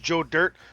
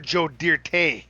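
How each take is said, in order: First: The name is said plainly, ending on 'dirt'. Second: The name ends with a fancy French-style 'tay'. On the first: This is the old, ordinary version. "The old team was" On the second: This is the new, fancier version.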